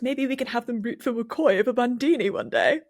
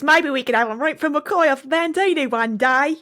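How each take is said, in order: First: It is read in a posh RP British accent. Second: It is read in a broad Cockney British accent. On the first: "Jax would have been so R P about it" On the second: "imagining like a proper Cockney accent"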